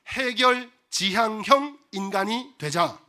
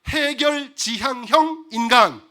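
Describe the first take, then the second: First: It is said at normal volume. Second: It is said louder.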